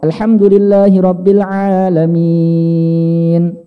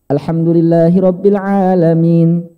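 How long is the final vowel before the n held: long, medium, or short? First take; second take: long; short. First: The final long vowel is held very long. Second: The final long vowel is held only briefly. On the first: "enam harokat"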